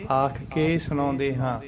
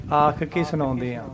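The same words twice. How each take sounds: The two takes are said the same way.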